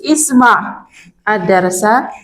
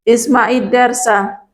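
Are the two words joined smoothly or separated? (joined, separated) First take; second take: separated; joined. First: The words are split apart with a break between. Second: The words run together with a linking i vowel. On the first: The speaker calls it wrong. "boleh kita baca putus" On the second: The speaker calls it right. "Ini kalau mau kita sambung dengan yang alif lam"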